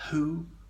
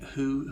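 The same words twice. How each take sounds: First: The H is breathed strongly and exaggerated. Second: The H is breathed lightly, without exaggeration. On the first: The speaker calls it wrong. "I could emphasize it too much" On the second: The speaker calls it right. "one mustn't over egg it"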